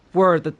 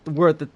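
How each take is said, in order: Both takes have the same delivery.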